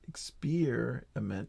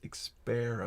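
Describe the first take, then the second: First: The second syllable sounds like 'ear'. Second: The second syllable sounds like 'air'.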